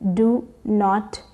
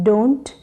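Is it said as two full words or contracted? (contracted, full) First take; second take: full; contracted. First: Said as two full separate words. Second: Said as one short contracted word.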